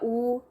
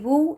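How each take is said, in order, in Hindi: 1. इस अक्षर की शुरुआत सिर्फ़ एक स्वर से होती है। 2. इस अक्षर की शुरुआत एक साफ़ w की आवाज़ से होती है। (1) "वो या ऊ नहीं है" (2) "वाव ज़बर ज़ेर पेश के साथ है वा वी वू"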